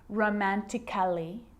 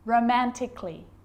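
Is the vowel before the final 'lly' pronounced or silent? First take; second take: pronounced; silent. First: An extra vowel is sounded before the final 'ly'. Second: No vowel is sounded before the final 'ly'. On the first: The speaker calls it wrong. "I'm not pronouncing" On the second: The speaker calls it right. "Cut the A out"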